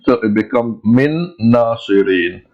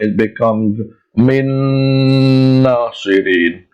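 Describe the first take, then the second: First: The joining nasal sound is kept short. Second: The joining nasal sound is held long. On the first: "we join the two words" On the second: "we have to stretch that Min sound"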